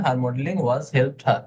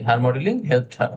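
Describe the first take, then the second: First: Said in the usual way. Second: Slow correct version. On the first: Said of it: "আপনি বলছিলেন her modeling was helped her". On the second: Shown as a demonstration. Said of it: "আননেসেসারি".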